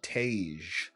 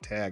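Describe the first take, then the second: First: The name is said with a different vowel, like 'Tage'. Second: The name is said with a short a, like 'tag'. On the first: The speaker calls it wrong. "someone else called him Tage" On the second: The speaker calls it right. "it is Tag"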